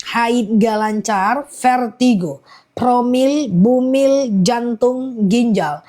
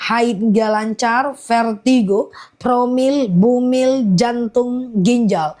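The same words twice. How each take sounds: The two takes are said the same way.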